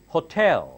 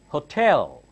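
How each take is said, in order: Both takes have the same delivery.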